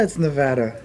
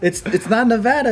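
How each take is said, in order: First: "Nevada" low with a falling tune; tonal Nevada contrast. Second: "Nevada" high with a rising tune; tonal Nevada contrast. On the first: Insisting on a difference to laughing friends, falling "Nevada". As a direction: drop "Nevada" down low as if it were a tone. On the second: Insisting on a difference to laughing friends, rising "Nevada". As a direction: lift "Nevada" upward as if it were a tone. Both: Shown as a demonstration. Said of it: "saying it with Cantonese tones".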